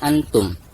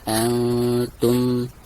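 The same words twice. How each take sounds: First: The n sound is pronounced clearly and distinctly. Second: The n sound is hidden with a nasal hum. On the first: The speaker calls it wrong. "bukan dibaca antum, bukan dizohirkan nun sukunnya" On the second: The speaker calls it right. "harus disamarkan disertai dengan dengung ya. Wala antum, seperti itu"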